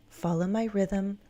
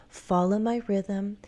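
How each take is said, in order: Both takes have the same delivery.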